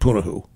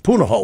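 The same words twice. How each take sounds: First: The name is said in another, non-local way. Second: The name is said in the local way. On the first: The speaker calls it wrong. "I think I said Punahou" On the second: The speaker calls it right. "That's Punahou in Hawaii"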